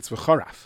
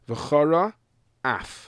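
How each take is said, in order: First: The two words run together into one quick word. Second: The two words are said separately and clearly. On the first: Something disrespectful is said about God. The speaker calls it wrong. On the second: The anger of God is kindled. The speaker calls it right.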